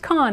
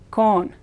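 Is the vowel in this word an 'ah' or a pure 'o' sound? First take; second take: ah; pure o. First: The vowel is an open English-style 'ah' sound. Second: The vowel is a pure rounded 'o' sound. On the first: The speaker calls it wrong. "It's not pronounced con" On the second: The speaker calls it right. "Spanish O is always O, it's con"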